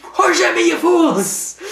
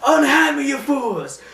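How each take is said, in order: First: Very high, loud squeaky mock rant; childish parody of a villain; shrieky cartoon copycat yell; Harley mimicking Scarecrow. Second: High, loud villain shout; hammed-up villain yell; Scarecrow rant. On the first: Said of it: "I always like that, like, how she can just". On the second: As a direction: bellow like a ranting cartoon villain. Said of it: "Scarecrow's like this".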